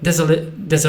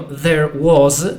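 First: The phrase is shortened to sound like there's. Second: Both words are pronounced fully and separately. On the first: The speaker calls it right. "tylko mówią there's" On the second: The speaker calls it wrong. "oni nie mówią there was"

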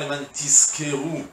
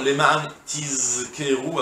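First: The verb is said with an s sound. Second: The verb is said with a z sound. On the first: So that you will be paid. The speaker calls it wrong. "Et pas" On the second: So that you will remember. The speaker calls it right. "avec un zaïn"

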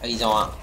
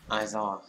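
First: The first vowel is a short 'uh-ee' sound. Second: The first vowel is an open 'ah-ee' sound. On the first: The speaker calls it wrong. "mình đọc là ây" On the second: The speaker calls it right. "Thực ra đọc là ai"

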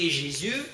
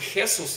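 First: The name is pronounced the French way. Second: The name is pronounced the Spanish way. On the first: "по-французски Jésus" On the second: "по-испански Хесус"

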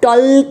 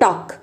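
First: The L sound is pronounced before the K. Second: The L sound is silent before the K. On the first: The speaker calls it wrong. "हम टॉल्क नहीं बोलते" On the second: The speaker calls it right. "What we से टॉक"

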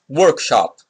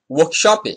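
First: The word is said in a non-Brazilian pronunciation. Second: The word is said in a Brazilian pronunciation. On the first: The speaker calls it wrong. "not workshop" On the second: The speaker calls it right. "We say workshop"

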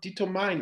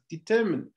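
First: The last syllable sounds like 'mine'. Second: The last syllable sounds like 'min'. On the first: The speaker calls it wrong. "It's not determine, because there's a mine there" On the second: The speaker calls it right. "it's determine"

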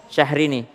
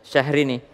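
The two takes are said the same way.

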